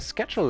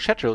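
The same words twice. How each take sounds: First: It is said in an American accent. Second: It is said in a British accent.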